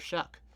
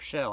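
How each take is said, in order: First: The name ends with a k sound. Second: The name ends in an open vowel. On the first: The speaker calls it right. "I heard an announcer pronounce it, pronounce it Shuck" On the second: The speaker calls it wrong. "people used to call him Showtime, so I thought it was Show"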